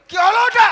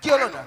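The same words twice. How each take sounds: First: Loud, high scolding question; angry demand. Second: Said in the usual way. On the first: Acted. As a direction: shout it as a stern teacher demanding an answer. Teacher angrily repeats his question.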